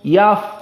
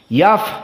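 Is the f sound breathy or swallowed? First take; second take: swallowed; breathy. First: The f is swallowed with no breath escaping. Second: The f is released with audible breath escaping. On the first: The speaker calls it wrong. "tidak ada nafas keluar, maka ini salah" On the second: The speaker calls it right. "Maka dikeluarkan angin itu atau nafas itu"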